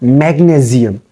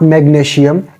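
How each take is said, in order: First: The middle consonant is a z sound. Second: The middle consonant is a sh sound. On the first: The speaker calls it right. "Change the sound of S with Z" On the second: The speaker calls it wrong. "you don't have to make the sound of S I like sh"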